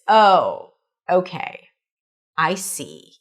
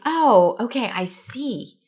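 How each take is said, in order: First: It sounds sarcastic, lower, with vocal fry. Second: It sounds genuine, warm and sincere. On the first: The speaker does not really see and wants to belittle. "So it's a little sarcastic, a little ironic" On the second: The speaker truly understands and is grateful. "it could be said in a genuine way"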